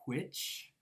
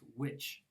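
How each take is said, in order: First: It begins with a breathy, voiceless w sound. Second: It begins with a plain, voiced w sound. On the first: "the W H one is pronounced which" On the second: "the W one is pronounced which"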